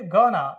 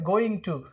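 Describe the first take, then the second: First: The words are blended into one short word. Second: Both words are said fully and separately. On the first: "क्या pronounce करेंगे, गोना" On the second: "गोइंग टू को जब pronounce करेंगे तो क्या pronounce करेंगे"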